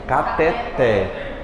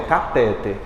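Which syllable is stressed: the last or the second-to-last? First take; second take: last; second-to-last. First: The stress is on the last syllable. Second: The stress is on the second-to-last syllable. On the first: The speaker calls it right. "A mais forte é o té" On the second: The speaker calls it wrong. "Não é catéter"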